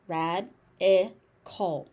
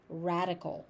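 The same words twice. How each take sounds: First: "Rad-i-cal" slow, in three separate beats; syllable by syllable. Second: Said in the usual way. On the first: Shown as a demonstration. Teacher breaking the word down for learners, syllable by syllable. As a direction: pause between each syllable of "Rad-i-cal".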